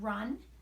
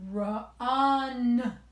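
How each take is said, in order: First: The word is said at a normal pace. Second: The middle vowel is drawn out slowly. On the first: "first I would say the word run" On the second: "I would say it roller coaster style"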